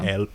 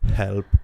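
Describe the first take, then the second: First: The word starts without an h sound. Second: The word starts with a clear h sound. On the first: This is how Italians say it. The speaker calls it wrong. "I also say like we say" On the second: This is the standard English way. The speaker calls it right. "don't say help"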